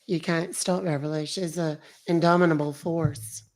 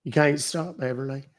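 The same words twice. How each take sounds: First: Lightly put-on character voice; hint of a sweetly proud character; Beverly voice. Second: Said in the usual way. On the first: Streamer echoing a comment about Beverly, in a light character voice.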